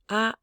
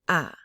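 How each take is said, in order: First: The vowel is held on a high level pitch. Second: The vowel is said low, deep from the stomach. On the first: "this is a high bell tone" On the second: "This is a lower from the pit of your stomach tone"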